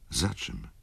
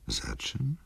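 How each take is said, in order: First: Said in the usual way. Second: Breathy whispered question, rising at the end; whispered echo. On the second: A narrator's reading. Wokulski, startled, whispers the question back to Ignacy.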